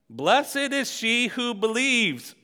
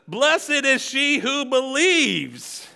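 First: It is said at a normal volume. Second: It is said a little louder.

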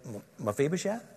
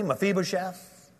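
First: It is said as a hesitant question. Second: It is said firmly, with authority.

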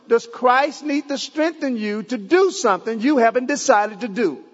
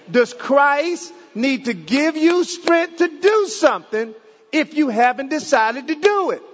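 First: It is said at normal speed. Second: It is said slowly.

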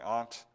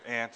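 First: It is said the non-Ohio way. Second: It is said the Ohio way.

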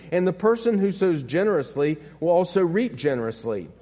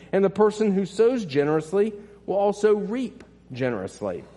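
No difference in how they are said.

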